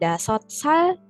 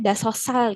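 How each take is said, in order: First: The two words are said separately and carefully. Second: The two words run together quickly into one.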